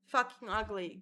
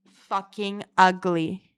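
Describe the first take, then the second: First: Said in the usual way. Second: Drawn out and loud; loud, slow self-mockery; loud slow insult. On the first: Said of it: "plain take". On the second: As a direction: hit it hard and slow. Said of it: "loud take".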